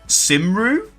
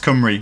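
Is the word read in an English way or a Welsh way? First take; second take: English way; Welsh way. First: The word is read with English spelling sounds. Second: The word is said with its Welsh pronunciation. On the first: The speaker calls it wrong. "if you were trying to say that phonetically in English, you'd read it and go like" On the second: The speaker calls it right. "but it's Cymru"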